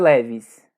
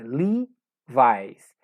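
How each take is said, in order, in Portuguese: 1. Tem as vogais curtas do português, 'e' e 'i'. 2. Tem as vogais longas do inglês, 'ee' e 'ai'. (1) "Não é Levis" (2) "Na pronúncia correta em inglês. É Levi's. Esse E tem a pronúncia arrastada, mas prolongada, I"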